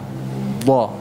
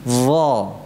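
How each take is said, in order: First: The tongue tip stays behind the upper teeth. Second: The tongue tip sticks out between the teeth. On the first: The speaker calls it wrong. "itu contoh yang salah" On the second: The speaker calls it right. "Yang benar ... ujung lidahnya keluar sedikit"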